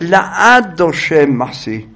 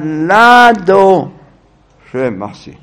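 First: The aleph is pronounced separately after the prefix. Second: The aleph is swallowed into the prefix. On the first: The speaker calls it wrong. "לא יגיד" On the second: The speaker calls it right. "בולע את האלף, לא מפליט את האלף"

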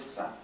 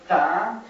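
First: The consonant is pronounced as an s sound. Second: The consonant is pronounced as a t sound. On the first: The speaker calls it wrong. "האשכנזים ... עשו מזה סא" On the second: This is the traditional pronunciation kept by some communities. The speaker calls it right. "התף צריך להיות תא"

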